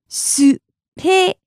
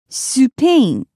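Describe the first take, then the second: First: "Spain" as Japanese "su-pe-i-n", beats apart; syllable by syllable. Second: Said in the usual way. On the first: Shown as a demonstration. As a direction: slowly separate each sound of "Spain", Japanese-style. Teacher breaks word into syllables.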